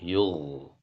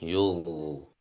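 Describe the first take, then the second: No difference in how they are said.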